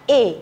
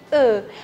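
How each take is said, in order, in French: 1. La voyelle est un e fermé avec les lèvres non arrondies. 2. La voyelle se dit avec les lèvres arrondies, en avant. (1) "quando eu coloco o accent aigu, ela vai virar E" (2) "com biquinho"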